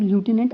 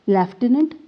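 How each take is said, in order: First: It has the American 'loo' sound at the start. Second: It has the British 'left' sound at the start.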